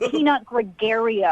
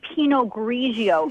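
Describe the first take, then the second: First: The first word sounds like 'peanut'. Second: The first word sounds like 'pee-noh'. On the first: The speaker calls it wrong. "It's not Peanut Gregario" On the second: The speaker calls it right. "how to say Pinot Grigio"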